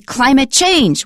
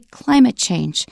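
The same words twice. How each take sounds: First: The stress falls on the word change. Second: The stress falls on the word climate. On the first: The speaker calls it wrong. "We don't say climate change" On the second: The speaker calls it right. "we say climate change"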